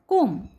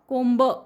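First: The final b sound is left silent. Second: The final b sound is pronounced. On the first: The speaker calls it right. "It's just कोंब, ब नाही वाचायचं" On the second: The speaker calls it wrong. "कोंब असं नाही वाचायचं"

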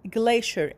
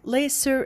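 First: It is said with an American accent. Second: It is said with a British accent. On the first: "in American accent" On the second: "in a British accent"

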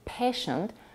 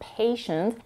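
First: The first vowel is a short plain vowel. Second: The first vowel is a gliding diphthong. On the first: The speaker calls it wrong. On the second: The speaker calls it right.

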